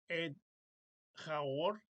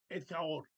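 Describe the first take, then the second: First: Two separate words, each carrying its own stress. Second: One joined word with a single stress. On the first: The speaker calls it wrong. "En lugar de decir" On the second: The speaker calls it right. "se debe pronunciar como una sola palabra"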